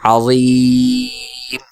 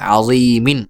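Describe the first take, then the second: First: The vowel is stretched long and the ending dropped. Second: The vowel is held briefly and the ending sounds. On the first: The reader stops on this word. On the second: The reading continues without stopping.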